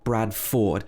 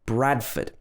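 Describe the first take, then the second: First: The ending is a full 'ford'. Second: The ending is a reduced 'fud' with schwa. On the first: The speaker calls it wrong. "Not Bradford" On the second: The speaker calls it right. "We would say Fud"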